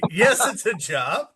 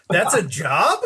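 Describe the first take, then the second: First: Slow, higher-pitched retold reassurance; emphatic confirmation. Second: Retold incredulous question, lifting at the end; surprised question. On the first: Marketing chief answering the doubtful storyteller, drawn-out confirmation. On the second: Storyteller quoting his reaction to the marketing chief, mildly incredulous. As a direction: ask it in mild disbelief.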